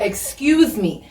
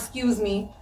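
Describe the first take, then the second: First: Every syllable is pronounced carefully and fully. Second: It is said quickly with syllables dropped.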